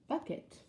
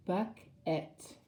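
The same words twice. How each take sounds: First: Said in the usual way. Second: "buck, et" as two separate beats; split into syllables. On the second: Shown as a demonstration. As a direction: leave a clear gap between "buck" and "et". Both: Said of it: "another two-syllable word".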